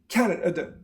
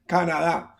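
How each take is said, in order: First: Only the first syllable is stressed; others are weak. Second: Every syllable has a full, clear vowel. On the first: The speaker calls it right. "But here you just say" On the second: The speaker calls it wrong. "maybe you say like Spanish speakers"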